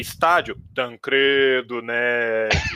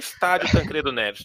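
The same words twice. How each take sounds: First: The name is said with an ironic, quote-marking inflection. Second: The name is said plainly, with no special inflection. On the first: The speaker calls it right. "com a inflexão certa" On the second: The speaker calls it wrong. "Você não leu com a inflexão certa"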